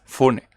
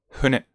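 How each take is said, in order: First: The first sound is a strong, firm f. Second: The first sound is a soft, h-like breath. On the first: The speaker calls it wrong. "no es fune" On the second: The speaker calls it right. "más como casi como una H"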